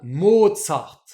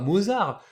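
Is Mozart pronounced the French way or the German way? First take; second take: German; French. First: It is said with a German pronunciation. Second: It is said with a French pronunciation. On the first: The speaker calls it right. "qui se prononce bien à l'allemande Mozart" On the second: The speaker calls it wrong. "nous on dit Mozart parce qu'on le voit écrit Mozart, on dit bah Mozart"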